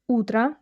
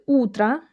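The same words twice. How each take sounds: Both takes have the same delivery.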